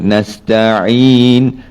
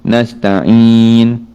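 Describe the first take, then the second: First: The ain sound stays inside the mouth. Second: The ain sound is pushed into the nose. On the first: The speaker calls it right. "dia mesti main di rongga mulut saja" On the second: The speaker calls it wrong. "baca dia pergi ke hidung"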